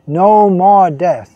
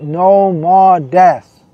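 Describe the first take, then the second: First: No more death, slow and louder again; slow emphatic repeat. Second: No more death, slow and louder, each word weighed; slow emphatic declaration. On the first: Preacher repeating to listeners, slow and emphatic. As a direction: hammer it home. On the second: Preacher proclaiming to devotees, slow and emphatic. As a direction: drag it out with conviction. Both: Acted.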